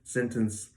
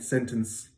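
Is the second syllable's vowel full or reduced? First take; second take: reduced; reduced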